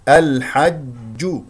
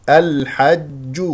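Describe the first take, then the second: No difference in how they are said.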